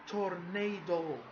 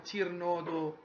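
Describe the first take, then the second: First: The first syllable sounds like 'tor'. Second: The first syllable sounds like 'tir'. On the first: The speaker calls it right. "it's a tornado" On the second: The speaker calls it wrong. "It's not a tirnado ... Wrong"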